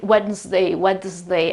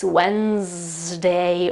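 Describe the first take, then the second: First: "Wednesday" with the D sounded, wed-nz-day; wrong, with D. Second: "Wednesday" as wenz-day, very slow, no D; right, silent D. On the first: Teacher imitating non-native speakers' mistake, D sounded. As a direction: clumsily sound the D inside "Wednesday". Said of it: "they put the D sound". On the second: Teacher models the right pronunciation for students, silent D. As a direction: stretch out "Wednesday" slowly with the D silent. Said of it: "The right pronunciation is this". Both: Shown as a demonstration.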